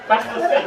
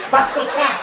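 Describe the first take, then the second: First: Possessed. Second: Raised, louder possessed snarl. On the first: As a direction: snap back as the spirit. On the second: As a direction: spit it out as the possessing spirit. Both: Pretend. Possessed wife answers exorcist.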